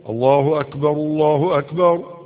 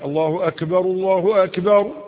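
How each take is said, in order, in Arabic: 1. يُنطق حرف الكاف بلا قلقلة. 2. يُنطق حرف الكاف مع قلقلة. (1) "هذا وصاب الله أكبر الله أكبر" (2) "الكاف ليس من حروف القلقلة"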